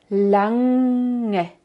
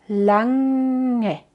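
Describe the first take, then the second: The two takes are said the same way.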